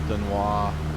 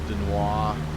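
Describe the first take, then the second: First: The name is said with a French pronunciation. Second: The same.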